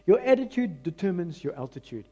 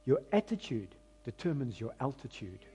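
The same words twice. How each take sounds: First: Said in the usual way. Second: Soft emphatic saying. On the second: Shown as a demonstration. Preacher quoting a saying to church, softer and deliberate. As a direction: let the saying sink in quietly. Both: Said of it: "I'm gonna say it again".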